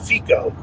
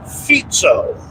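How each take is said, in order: First: The middle consonant sounds like a hard k. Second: The middle consonant sounds like a buzzing z. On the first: The speaker calls it wrong. "I always pronounced it Fico" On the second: The speaker calls it right. "it sounds more like Fizzo"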